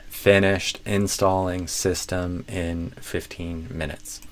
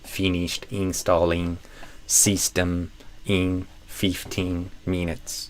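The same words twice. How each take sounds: First: The i vowels are short, near Portuguese ê. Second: The i vowels sound like long ee. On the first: The speaker calls it right. "But instead" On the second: The speaker calls it wrong.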